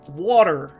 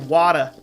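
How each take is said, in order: First: The word is said in a Delaware accent. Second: The word is said in a Boston accent. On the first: "if you're from Delaware ... you pronounce it water because it has a T in it" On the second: "It's kind of like Boston. They say Wada. That Boston accent"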